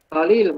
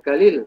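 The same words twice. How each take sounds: First: The word begins with a deep q sound. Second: The word begins with a hard g sound.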